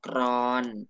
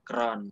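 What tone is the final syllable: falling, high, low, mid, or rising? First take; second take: mid; low. First: The syllable has a level mid tone. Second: The syllable has a low tone.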